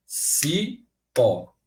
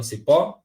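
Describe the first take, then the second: First: "Cipó" as two separate syllables, "ci... pó"; split into syllables. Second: Said in the usual way. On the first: Shown as a demonstration. Teacher answering how the word divides, "Cipó" split by syllable. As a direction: say "Cipó" slowly with a gap after "ci". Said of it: "como é que eu separo a palavra". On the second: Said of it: "como é que eu separo a palavra cipó?".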